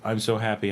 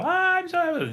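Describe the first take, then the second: First: It is said flatly, with little emotion. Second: It is said with big, intense emotion.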